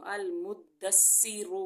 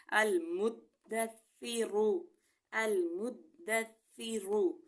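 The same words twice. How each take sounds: First: المدثر with ث whistled like س. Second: المدثر slow, ث soft with tongue tip at teeth. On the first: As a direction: hiss the ث in المدثر as a س. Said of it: "تو میں نے سیٹی کی". (المدثر میں سیٹی والا ث) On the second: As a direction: keep the ث in المدثر soft, no whistle. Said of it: "سا میں جو ہے نرمی کا خیال رکھیں گے". (المدثر نرم ث کے ساتھ) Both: Shown as a demonstration.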